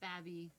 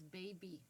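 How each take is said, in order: First: The first vowel sounds like the vowel in 'bad'. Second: The first vowel sounds like the vowel in 'bay'. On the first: The speaker calls it wrong. "not babby, or whatever dumb thing you say" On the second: The speaker calls it right. "it's baby"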